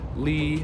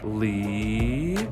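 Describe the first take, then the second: First: The pitch stays level and even. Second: The pitch rises smoothly from mid-low. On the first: "Keep it even. Those are first tones" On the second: "Now the second tone is rising"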